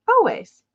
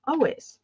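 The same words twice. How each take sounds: First: Eager "Always" sung out, falling at the end; emphatic always. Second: Said in the usual way. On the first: Acted. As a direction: hit "Always" hard the second time, up high. Emphatic repeat of enthusiasm.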